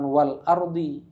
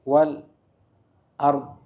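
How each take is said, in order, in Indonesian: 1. Hentian glotal mengawali kata kedua. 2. Ada hentian singkat setelah kata pertama. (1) "bukan wal ardi" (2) "dua harokat dulu berhenti"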